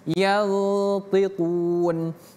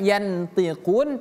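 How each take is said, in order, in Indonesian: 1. Bunyi n sebelum t tersembunyi dan disengaukan. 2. Bunyi n sebelum t diucapkan penuh. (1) "Huruf to ini merupakan huruf ikhfa" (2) "bukan yantiqun"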